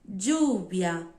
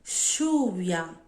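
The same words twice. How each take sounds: First: The ll sounds like a dj sound. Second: The ll sounds like a sh sound. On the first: "E som de D" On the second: "Som de X"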